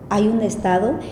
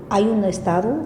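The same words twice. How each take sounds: The two takes are said the same way.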